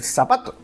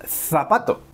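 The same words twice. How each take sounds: First: "zapato" with Z said as S; seseo. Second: "zapato" with Z as th in "think"; Castilian Z. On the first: How most Spanish speakers say it, seseo. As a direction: say "zapato" as "sapato", plain S at the start. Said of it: "la mayoría vamos a decir". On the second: What most Spanish speakers won't say, Castilian th. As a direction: say "zapato" as "thapato", tongue between the teeth. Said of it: "no vamos a decir". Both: Shown as a demonstration.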